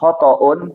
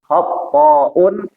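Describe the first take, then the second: First: The t sound is short and single. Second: The t sound is doubled and held longer. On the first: It simply means wrong. "Kalau cuman khotoun itu salah" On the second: It means someone who errs very often. "kalau dipakai tasdid, huruf to-nya"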